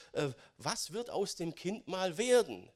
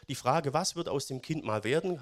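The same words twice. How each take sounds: First: Falling tune on werden, doubtful tone; sceptical question. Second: Rising tune on werden, curious and hopeful; open question. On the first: Preacher voicing doubtful neighbours, falling sceptical tune. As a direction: say "was wird aus dem Kind mal werden" dropping at the end, as if nothing good can come of it. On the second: Preacher voicing curious neighbours, hopeful rising question. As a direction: lift "werden" at the end, a genuinely open wondering question. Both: Shown as a demonstration. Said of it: "je nach Betonung".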